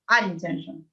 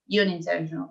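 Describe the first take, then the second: First: The word begins with an 'uh' vowel sound. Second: The word begins with a 'yoo' sound. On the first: The speaker calls it right. "es unintentional" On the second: The speaker calls it wrong. "no es you, no es unintentional"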